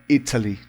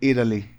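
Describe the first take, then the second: First: It is said with a British accent. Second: It is said with an American accent.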